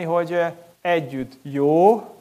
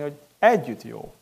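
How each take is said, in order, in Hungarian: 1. A hangsúly a jó szón van. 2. A hangsúly az együtt szón van. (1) "tehát jó a gyülekezet" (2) "Az az igazi, amikor nem egyedül, hanem amikor másokkal együtt"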